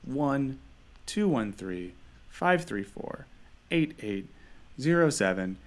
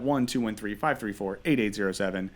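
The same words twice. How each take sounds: First: The number is said more slowly. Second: The number is said at normal speed.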